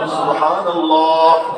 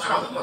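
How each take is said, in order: First: It is said carefully and beautifully. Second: It is said hurriedly and carelessly.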